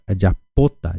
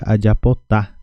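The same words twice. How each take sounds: First: Adiapota stressed on PO, the next-to-last syllable. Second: Adiapotá stressed on the final TÁ; stress on last syllable. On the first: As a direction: lean on the PO in adiapota, letting TA fall away. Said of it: "colocamos o acento aqui em cima do O". (adiapota com a tônica no PO, não no TA) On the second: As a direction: move the stress off PO and land on TÁ in adiapotá. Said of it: "Se eu tirasse o acento daqui". (adiapotá com a tônica na última sílaba, TÁ) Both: Shown as a demonstration.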